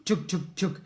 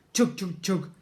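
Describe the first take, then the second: No difference in how they are said.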